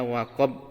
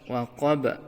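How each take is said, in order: First: The final b stops flat without any bounce. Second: The final b is released with an echoing bounce. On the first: The speaker calls it wrong. "Tidak boleh dibaca waqab" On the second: The speaker calls it right. "ada pantulannya"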